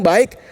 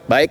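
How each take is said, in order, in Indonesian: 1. Diucapkan dengan nada riang dan positif. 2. Diucapkan dengan nada enggan dan tidak senang.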